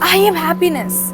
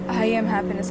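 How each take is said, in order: First: It is said with strong feeling and energy. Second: It is said flatly, without feeling. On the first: The words are declared with real conviction. The speaker calls it right. "that is me adding my emotion and energy to something" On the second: The words are only read, not felt. The speaker calls it wrong. "If I read it that way, it is a definite sign that I'm not going to receive it"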